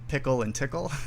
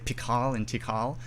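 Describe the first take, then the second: First: The titles rhyme with the word pickle. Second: The titles have a long first vowel. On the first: "Some people say pickle and tickle" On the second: "some people say pikal and tikal"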